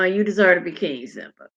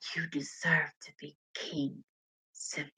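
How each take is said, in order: First: It is said quickly and plainly. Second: It is said slowly and sultrily.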